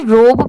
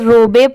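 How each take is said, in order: First: The word ends on the b sound. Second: An extra vowel is sounded at the end. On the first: The speaker calls it right. "But नहीं, इसे रोब pronounce किया जाता है" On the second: The speaker calls it wrong. "बहुत सारे लोग जिनको नहीं आता इसे रोबे पढ़ देते हैं"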